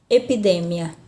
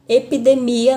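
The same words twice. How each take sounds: First: EPIDEMIA stressed on DE, e-pi-DE-mia; Spanish stress. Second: EPIDEMIA stressed on MI, e-pi-de-MI-a; Portuguese stress. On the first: Teacher contrasts the Spanish word, stress on DE. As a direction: hit the DE of EPIDEMIA. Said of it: "Na língua espanhola". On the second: Teacher gives the Portuguese example, stress on MI. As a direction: lean on the MI of EPIDEMIA. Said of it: "na língua portuguesa". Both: Shown as a demonstration.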